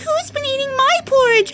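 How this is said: It is said in a tiny little voice. "he said in a tiny little voice"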